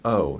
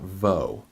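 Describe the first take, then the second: First: It is a bare vowel with no V sound. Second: It starts with a V sound before the vowel. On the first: The speaker calls it right. "you would pronounce it o" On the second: The speaker calls it wrong. "not vo"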